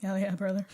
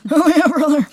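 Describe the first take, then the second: First: Said in the usual way. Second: Louder, higher bro cheer; hype bro shout. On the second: Shown as a demonstration. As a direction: pump it up like a gym bro.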